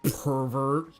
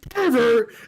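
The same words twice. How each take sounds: First: It is muttered quietly under the breath. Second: It is shouted loudly, like screaming.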